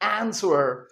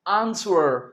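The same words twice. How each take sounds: First: The first vowel is a flat 'a' as in cat. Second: The first vowel is a long open 'ah' sound. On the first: "वो क्या कहते हैं?" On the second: "हम कहते हैं आंसर"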